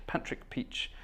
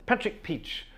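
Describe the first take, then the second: First: Breathy whisper, savouring Patrick Peach; whispering Patrick Peach like a storybook character; whispered name. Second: Said in the usual way. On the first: Real, not acted.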